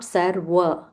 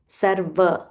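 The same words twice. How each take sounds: First: The middle consonant sounds like a W. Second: The middle consonant sounds like a V. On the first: The speaker calls it wrong. "It is not Sarva. There's no W in Sanskrit" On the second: The speaker calls it right. "It's only V. So Sarva"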